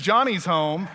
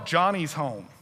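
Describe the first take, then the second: First: It is said in a bright, cheerful tone. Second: It is said in a low, grim tone. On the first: The return is welcome news. The speaker calls it wrong. "He's not like, good news" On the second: The return is a warning of trouble. The speaker calls it right. "He's like, no, ... Heads up"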